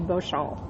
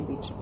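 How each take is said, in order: First: The name is pronounced the French way. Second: The name is pronounced the English way. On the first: "In French, it would be Beauchamp" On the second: "But I would say Beauchamp"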